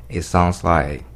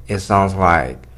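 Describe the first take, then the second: The two takes are said the same way.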